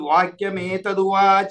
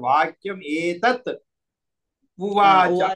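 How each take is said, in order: First: The last two words are joined into one. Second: The last two words are said separately. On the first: "చదివేటప్పుడు వాక్యం ఏతదువాచ అని చదవచ్చు" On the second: "ఇక్కడ ఎలా చదవాలంటే"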